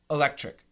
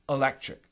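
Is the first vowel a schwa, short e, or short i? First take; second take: schwa; schwa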